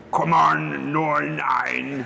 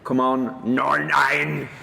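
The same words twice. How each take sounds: First: A higher hammed-up Northern Irish accent; mock Northern Irish. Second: A light Northern Irish accent put on to tease; mock Northern Irish. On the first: Host reading out a gift mug, hamming up a Northern Irish accent. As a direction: send up a Belfast mate's accent. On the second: Host teasing his co-host with a light Northern Irish accent. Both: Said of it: "taking the piss out of my accent".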